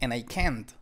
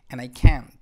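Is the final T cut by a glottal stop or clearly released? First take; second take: released; glottal stop. First: The final T is clearly released. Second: The final T is cut by a glottal stop. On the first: This is how Spanish speakers would say it. "Y nosotros diríamos" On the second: This is how native speakers say it. "no enfatizan en pronunciar esto"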